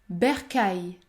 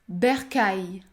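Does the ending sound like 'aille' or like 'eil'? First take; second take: aille; aille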